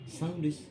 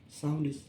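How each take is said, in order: No difference in how they are said.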